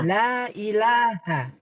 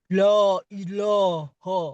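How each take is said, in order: First: The l and vowels sound thin and light. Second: The l and vowels sound thick and dark. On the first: The speaker calls it right. "yang boleh la. La kan tipis" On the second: The speaker calls it wrong. "tidak boleh lam itu dibaca medok"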